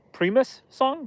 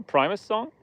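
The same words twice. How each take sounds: First: High, surprised question. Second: Said in the usual way. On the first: Real, not acted. Streamer surprised by a chat guess, asking in high surprise.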